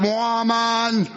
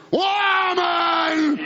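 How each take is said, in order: First: Said in the usual way. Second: "Woman!" shouted out with force; shouted call. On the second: Shown as a demonstration.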